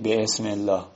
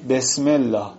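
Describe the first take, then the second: First: The glottal stop before ism is pronounced. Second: The glottal stop before ism is dropped. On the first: The speaker calls it wrong. "نمیگی" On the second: The speaker calls it right. "الان میگی چی؟"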